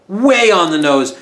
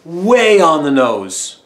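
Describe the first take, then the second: First: Said in the usual way. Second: Slow, louder; way on the nose, each word stretched; drawn-out emphasis. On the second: Shown as a demonstration. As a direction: stretch out way on the nose for comic weight. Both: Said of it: "the double entendres are".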